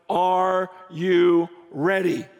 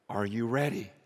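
First: ARE YOU READY slowly, each word weighted; emphatic challenge. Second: Very low and soft, a grave question; hushed solemn question. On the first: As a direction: put full-voiced, deliberate weight on "Are you ready". Quoted funeral warning, said again. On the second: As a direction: drop right down to ask it quietly. Quoted funeral warning, first telling. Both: Retold or imitated.

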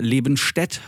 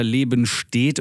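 First: „Lebenstedt“ endet wie „Stätt“; kurzes e am Ende. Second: „Lebenstedt“ endet wie „steht“; langes e am Ende. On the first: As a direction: sprich das letzte e in „Lebenstedt“ kurz und offen. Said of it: "Ob das D eventuell". (kurzes e in -stedt von „Lebenstedt“) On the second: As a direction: dehn das letzte e in „Lebenstedt“. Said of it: "ich weiß nicht". (langes e in -stedt von „Lebenstedt“) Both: Shown as a demonstration.

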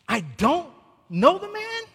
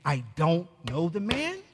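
First: Higher, punching "know" in disbelief; stress on know. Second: Low, soft disbelieving question, rising on man; hushed, repeating the words in disbelief; incredulous echo. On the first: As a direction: lift and hit "know" in "I don't know the man". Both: Retold or imitated. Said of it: "he is saying".

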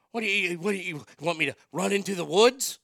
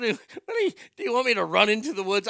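First: Imitating dad. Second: Mock dad voice, much higher, rushed and louder; hammed-up dad asking if he should run into the woods. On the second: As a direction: squeak it out like exasperated dad. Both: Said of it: "When he said".

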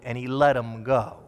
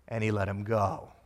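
First: Said in the usual way. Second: "and he let him go" much lower and softer, ending on a rise at "go"; soft emphasis. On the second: Shown as a demonstration. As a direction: let "go" fall to a hush then lift. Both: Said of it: "here comes the key phrase".

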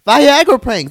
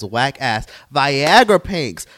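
First: High, loud outraged repeat; outraged shout. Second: Slow, drawn out. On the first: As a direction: shout it out in disbelief. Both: Real, not acted. Ranting about prank videos.

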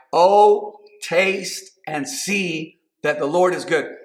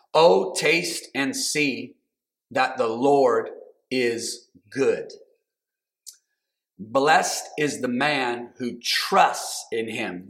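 First: Excited. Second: Scripture reading. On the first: Preacher rising in fervor. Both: Real, not acted.

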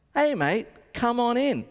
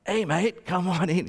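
First: Lightly voiced rocker's call, higher pitch. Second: Rock singer's rough-edged voice, lightly imitated. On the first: Rock singer inviting a fan backstage, lightly imitated. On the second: Rock singer waving a fan in, sing-style impression. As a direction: put on a rock vocalist's voice. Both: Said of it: "if you know how [name] sings".

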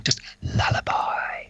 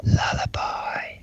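First: Slow, even whisper; simple hushed lullaby; plain whisper. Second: Slow, drawn-out whisper; softer, slower whisper. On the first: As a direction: whisper it straight, not spooky. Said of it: "not weird this time". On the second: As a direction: stretch the word in a hush. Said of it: "Too loud". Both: Shown as a demonstration.

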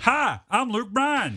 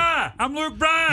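First: Slow, lightly put-on country star voice. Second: Much higher and louder, slow, stretched out. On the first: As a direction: drawl the name slowly like a weak impression. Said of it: "How's my [name] coming along". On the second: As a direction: yell the name like a radio promo. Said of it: "you gotta yell". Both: Shown as a demonstration.

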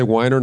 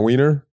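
First: "Weiner" said WHY-ner; first vowel as eye. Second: "Wiener" said WEE-ner; first vowel as ee. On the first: Co-host querying his pronunciation, "Weiner" as WHY-ner. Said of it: "not Wiener?". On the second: Co-host correcting the surname, "Wiener" as WEE-ner. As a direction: say "Wiener" with a long ee. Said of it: "it's pronounced Wiener". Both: Shown as a demonstration.

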